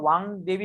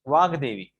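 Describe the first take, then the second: First: The consonant before devi is nasalized. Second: The consonant before devi is a plain g. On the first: The speaker calls it wrong. "ऐसा क्यों नहीं हुआ" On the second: The speaker calls it right. "ये अनुनासिक नहीं है"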